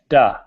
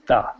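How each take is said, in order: First: It begins with a hard d sound. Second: It begins with a soft th sound. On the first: The speaker calls it wrong. "If you don't do that, you get duh. The tongue isn't there" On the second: The speaker calls it right. "that puff of air creates the T H sound"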